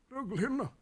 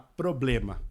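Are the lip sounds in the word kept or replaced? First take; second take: replaced; kept. First: The lip sounds are swapped for other sounds. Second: The lip sounds p, b and m are pronounced. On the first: "Mas ele falou trolena. Ele substituiu as bilabiais" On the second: "falar problema"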